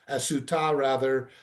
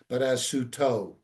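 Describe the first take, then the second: First: The word ends with an 'a' vowel. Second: The word ends with an 'o' vowel. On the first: This is how the written text would seem to read. The speaker calls it wrong. "we read it again not as Sota, as Suta rather" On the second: This is the traditional way it is read aloud. The speaker calls it right.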